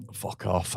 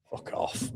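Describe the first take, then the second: First: Said in the usual way. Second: Whispered curse. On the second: Real, not acted. Annoyed at rival manager complaining.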